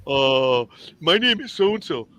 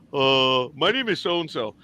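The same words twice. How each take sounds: First: Pointed self-introduction. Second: Said in the usual way. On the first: Shown as a demonstration. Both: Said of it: "I would turn around and tell 'em".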